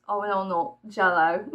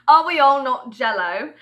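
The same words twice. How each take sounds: First: Said in the usual way. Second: Loud, higher mock-rhetorical question; hammed-up loud question. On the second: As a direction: belt out the question in play. Repeats the question, hammed up louder.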